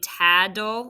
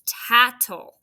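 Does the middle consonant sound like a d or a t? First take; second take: d; t. First: The middle consonant sounds like a d. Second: The middle consonant sounds like a t. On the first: The speaker calls it wrong. "like it sounds like a d" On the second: The speaker calls it right. "It's not. It's tattle"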